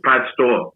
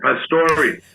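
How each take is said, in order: First: The name ends without a final vowel sound. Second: The name ends with a final vowel sound. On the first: This is the simplified name used later. "He dropped the E" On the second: This is the original family name. "the vowel at the end"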